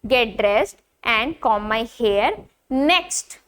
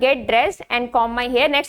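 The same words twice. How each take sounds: First: There is a pause before "next". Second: There is no pause before "next". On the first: The speaker calls it right. "जब आप बोल रहे हो आपको यहाँ पे पॉज लेना है" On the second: The speaker calls it wrong. "आप ऐसे नहीं बोल सकते हो"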